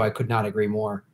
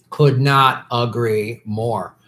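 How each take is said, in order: First: Said in the usual way. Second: Each word drawn out slowly; slow emphatic agreement. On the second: Real, not acted. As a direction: stretch out COULD NOT AGREE MORE.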